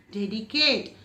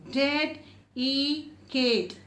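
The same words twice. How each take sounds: First: Said in the usual way. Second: Slow, each syllable split apart. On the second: Shown as a demonstration. Teacher splitting the word for children, slowly. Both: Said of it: "Two times".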